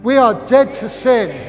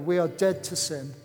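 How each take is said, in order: First: It is said loudly. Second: It is said at normal, quieter volume.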